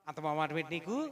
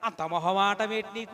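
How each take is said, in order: First: The phrase is said at a normal, even pace. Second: The phrase is said slowly with stretched-out sounds.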